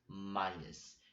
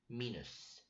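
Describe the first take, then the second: First: It is said in an English-like form. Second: It is said in a Russian-like form. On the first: This is the South Korean form. "just as a pronunciation which is same as English" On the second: This is the North Korean form. "Minus is a part of the word that which uses in North Korea"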